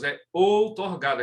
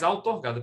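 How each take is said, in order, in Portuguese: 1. A primeira vogal é um som de O. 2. A primeira vogal é um som de A. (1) "é com O, não é com A não" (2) "Não diga jamais"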